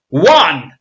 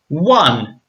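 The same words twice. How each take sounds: First: It is said very loudly. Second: It is said at a normal volume.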